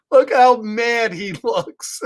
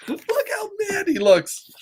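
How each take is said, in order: First: Said in the usual way. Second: Very high, whiny little voice; squeaky repeat. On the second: Acted. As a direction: squeal it in a playful put-on voice.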